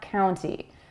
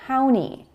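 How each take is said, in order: First: The T sound is clearly pronounced after the N. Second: The T sound is dropped after the N. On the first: "and not county" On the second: "you'll often hear county"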